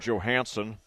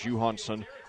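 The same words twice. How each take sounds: First: The name is said with an American pronunciation. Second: The name is said with a Swedish pronunciation.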